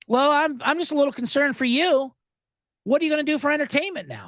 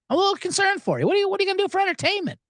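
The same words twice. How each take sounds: First: High, fast, mock-sweet concern; a syrupy concerned agent; sweet concerned rep. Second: Higher and much faster, hammed-up concern; exaggerated concerned rep. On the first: Comic quoting the rep's fake concern, high and quick. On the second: Comic repeating the rep even higher and faster. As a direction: overdo her syrupy worry. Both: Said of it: "That's what she said".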